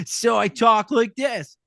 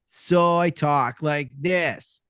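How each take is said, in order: First: High, slow, drawn-out jerk voice; pitched-up, stretched obnoxious character voice; obnoxious guy. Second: Same character voice slowed right down; slow, chilled-out stoner drawl; stoned skater dude. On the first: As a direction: do a bit of a dick. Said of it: "this guy is a bit of a dick". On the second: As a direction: talk like a zenned-out skater. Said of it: "Same voice, just slowed down". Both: Acted.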